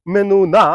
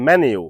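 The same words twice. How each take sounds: First: মেনু said meh-noo, louder; wrong pronunciation. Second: মেনু said men-yoo, lower; correct pronunciation. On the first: Teacher contrasting learners' mistake. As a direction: stress the mistaken form. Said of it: "এই শব্দটি আসলে মেনু না". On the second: Teacher modelling menu for learners. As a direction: glide into the yoo. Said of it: "সঠিক উচ্চারণ হবে". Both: Shown as a demonstration.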